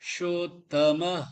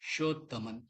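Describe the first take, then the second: First: The word ends with a breathy h sound. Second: The word ends with an n sound. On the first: The speaker calls it right. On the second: The speaker calls it wrong.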